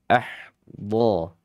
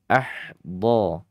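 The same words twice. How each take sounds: No difference in how they are said.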